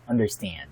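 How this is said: It is said with an American English accent. "in American English, we say understand. The stress is on the third syllable"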